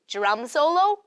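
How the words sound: The voice rises at the end, like a question.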